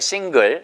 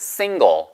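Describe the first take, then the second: First: The s is hissed out sideways. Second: The s is made at the front. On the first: The speaker calls it wrong. "single 발음이 싱글 절대 아니에요" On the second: The speaker calls it right. "앞에서 나 나오셔야 돼요"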